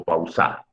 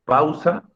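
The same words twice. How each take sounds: First: Pau-SA, deliberately stressed on the final syllable; stress on last syllable. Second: PAU-sa with the first syllable stressed, as a question. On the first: Teacher offers students the wrong option, "pausa" stressed on final SA. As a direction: misplace the stress in "pausa" onto SA. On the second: Teacher asks students how the word is pronounced, stress on PAU in "Pausa". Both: Shown as a demonstration. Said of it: "¿Cómo se pronuncia la palabra?".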